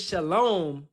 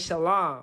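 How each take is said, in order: First: The word is said with an 'o' vowel. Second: The word is said without an 'o' vowel. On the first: The speaker calls it wrong. "don't say shalom with an O in it" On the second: The speaker calls it right. "Say shalom"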